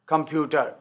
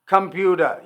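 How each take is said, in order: First: It is said softly in a British accent. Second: It is said in an American accent.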